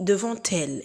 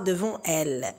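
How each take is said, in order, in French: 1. Le T final se lie au mot suivant. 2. Le T final ne se lie pas au mot suivant. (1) "On dit devant elle ... c'est une liaison obligatoire" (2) "et non pas devant elle"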